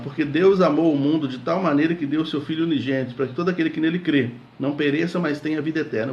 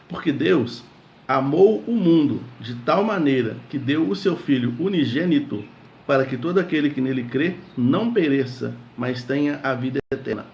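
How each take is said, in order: First: It is read at a faster pace. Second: It is read at a slower pace.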